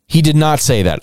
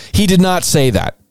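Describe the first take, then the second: First: He stressed less, level and firm; stress on HE, steadier. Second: HE punched high; stress on HE. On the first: Host repeating his denial, firm and level. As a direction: repeat it flatter, He still leading. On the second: Host scoffing at a witness quote, stress on He. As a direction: hit the word He hard, then fall. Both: Shown as a demonstration.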